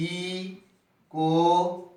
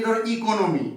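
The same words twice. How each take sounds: First: ইকোনমি pulled apart very slowly, one syllable at a time. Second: Said in the usual way. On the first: Shown as a demonstration. Teacher showing students how to count syllables, very slow. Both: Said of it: "কটা?".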